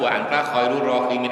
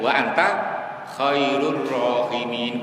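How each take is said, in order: First: The phrase is read straight through without stopping. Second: The phrase is broken by a short held pause. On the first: The speaker calls it right. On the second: The speaker calls it wrong. "jangan ... keliru itu"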